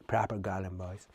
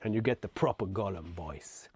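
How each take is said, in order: First: Lower, softer, rasped Gollum croak. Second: Said in the usual way. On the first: Shown as a demonstration. Reader showing listeners a Gollum voice, croaked low.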